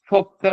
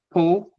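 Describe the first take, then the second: First: "pop" with the other O vowel, set against "po"; second O sound. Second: "po" with the O said one way, set against "pop"; first O sound. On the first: Teacher contrasting it with the first O, careful demo. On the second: Teacher demonstrating the first O vowel, careful demo. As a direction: say "po", holding the first of the two O vowels. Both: Shown as a demonstration. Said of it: "ça fait une différence entre le O et le O".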